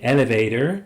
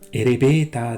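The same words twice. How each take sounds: First: It is said with an English pronunciation. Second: It is said with a Japanese pronunciation. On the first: The speaker calls it wrong. "comme leurs mots anglais" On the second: The speaker calls it right. "prononcés comme ils sont écrits"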